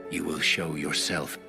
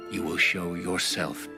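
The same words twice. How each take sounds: The two takes are said the same way.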